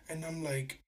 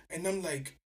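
No difference in how they are said.

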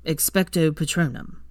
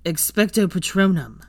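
First: Said in the usual way. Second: Louder casting shout. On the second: A narrator's reading. Draco casting the spell, loud shout. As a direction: cast the spell with force. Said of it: "Draco shouted".

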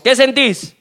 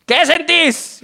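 First: Raised-pitch comic questioning; insistent doctor question. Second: Much higher, comically demanding; escalated insistent question. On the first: Joke doctor asking his patient mid-exam, insistent. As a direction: press the patient for an answer. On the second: Joke doctor asking his patient mid-exam, high and demanding. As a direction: repeat it pitched way up, demanding an answer. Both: Acted.

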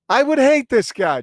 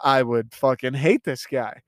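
First: "hate" hit much higher and louder; emphatic outburst. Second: Said in the usual way. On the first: Retold or imitated. Viewer fumes about Walt's firing, emphatic outburst. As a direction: blow up on the word "hate".

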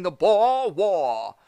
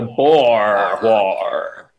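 First: Slow, hammy Boston "Boer War"; Boston accent. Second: Slow Boston "the Boer War"; Boston accent. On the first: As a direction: say "Boer War" as "pah waw", Boston-style. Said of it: "It's a terrible Boston accent". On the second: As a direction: drawl "the Boer War" as "pah waw". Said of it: "no one's saying the board war". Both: Pretend.

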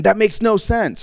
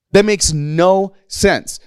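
First: Said in the usual way. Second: Slow, higher, stretching "no" right out; drawn-out emphasis. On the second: Real, not acted. Preacher repeating his point about Saul's logic, slowly and emphatically. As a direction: space out each word, lingering long on "no".

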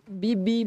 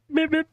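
First: Lightly higher beep-beep; a light mock horn beep; horn beep imitation. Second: Motorbike horn imitation. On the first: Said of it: "falou assim, ô". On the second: Shown as a demonstration. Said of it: "faz o barulhinho da moto, buzina".

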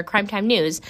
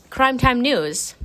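First: Said in the usual way. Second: "Crime Time News" said slowly and announced; "Time" stressed, slow and drawn out; announcer stress. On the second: Real, not acted.

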